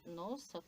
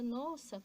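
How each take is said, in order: First: It is said with an ironic, mocking tone. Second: It is said with a joyful, delighted tone. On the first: The speaker does not really mean it. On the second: The speaker is pleased by them.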